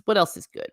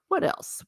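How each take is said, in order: First: Said in the usual way. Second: What else, breathed out in a whisper. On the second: Real, not acted. Vlogger musing to viewers in a whisper. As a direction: whisper it to yourself, thinking.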